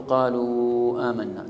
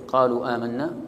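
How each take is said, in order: First: قالوا آمنا with a long, drawn-out oo ending قالوا; lengthened madd. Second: قالوا آمنا with the long oo of قالوا kept short; short madd. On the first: Teacher shows students the permitted long reading, madd held on قالوا. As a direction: stretch the oo of قالوا slowly before آمنا. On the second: Teacher shows students the permitted short reading, short madd on قالوا. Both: Shown as a demonstration. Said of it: "تمد وتقصر".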